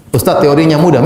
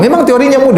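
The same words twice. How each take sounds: First: Said in the usual way. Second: "Memang" pitched much higher, then falling; emphatic agreement. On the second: Real, not acted. Ustadz concedes a listener's objection, emphatic agreement with high-pitched "Memang".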